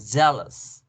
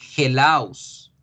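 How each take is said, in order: First: The word begins with a j sound. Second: The word begins with a throaty h sound. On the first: The speaker calls it right. "Jealous se pronuncia ye" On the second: The speaker calls it wrong. "yo no voy a pronunciarla hellos"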